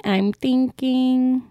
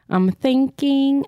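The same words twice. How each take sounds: First: Very slow, stretched musing; slower drawn out. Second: Slow, stretched thinking aloud; drawn out thinking. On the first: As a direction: drag it out even more. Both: Real, not acted.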